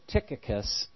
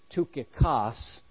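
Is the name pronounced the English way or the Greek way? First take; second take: English; Greek. First: The name is pronounced the English way. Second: The name is pronounced the Greek way. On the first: "but we say Tychicus" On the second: "It's actually Tychicus in Greek"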